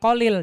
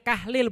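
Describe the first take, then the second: First: The first syllable sounds like 'ko'. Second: The first syllable sounds like 'kah'. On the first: The speaker calls it wrong. "bukan Kolil" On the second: The speaker calls it right. "namanya Kahlil"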